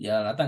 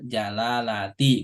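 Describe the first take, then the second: First: The word ends in an a vowel. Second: The word ends in an i vowel. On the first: The speaker calls it wrong. "jalalata nggak boleh" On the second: The speaker calls it right. "Lafdul jalalati"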